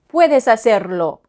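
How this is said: The pitch falls at the end. It is a statement. "Ça descend. Affirmation"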